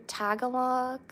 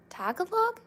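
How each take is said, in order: First: Said in the usual way. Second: Much higher puzzled question; surprised. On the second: Real, not acted. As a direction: ask it high, baffled. Repeats unfamiliar word, puzzled.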